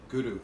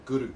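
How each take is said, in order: First: The R is slightly rolled with the tongue tip. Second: The same.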